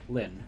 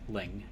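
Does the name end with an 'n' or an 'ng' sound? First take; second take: n; ng. First: The name ends with an 'n' sound. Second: The name ends with an 'ng' sound. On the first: The speaker calls it wrong. "not Lin" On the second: The speaker calls it right. "She she said Ling"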